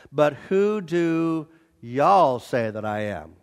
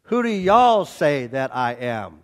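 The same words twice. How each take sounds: First: Slow southern drawl on "y'all". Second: Said in the usual way. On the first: Shown as a demonstration. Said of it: "the literal translation of verse fifteen says". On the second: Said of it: "literal translation".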